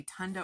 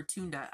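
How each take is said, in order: First: Tunda with a short "uh" in the first syllable; TUN-duh, one possible pronunciation of tunda; first guess at tunda. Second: Tunda with a long "oo" in the first syllable; TOON-duh, the other possible pronunciation of tunda; alternative guess at tunda. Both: Shown as a demonstration. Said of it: "I don't know how to pronounce it".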